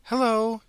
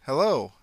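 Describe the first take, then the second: First: High, loud, chirpy greeting; cheery hello. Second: Said in the usual way. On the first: Acted. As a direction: wave and sing out hello. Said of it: "waving vigorously".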